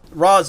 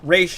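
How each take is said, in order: First: The name is said like 'Roz'. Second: The name is said like 'Raish'. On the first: This is the form used in the film version. "Roz is uh, Nolan verse" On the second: This is the intended original form. "Raish, I think, is how it's supposed to be pronounced"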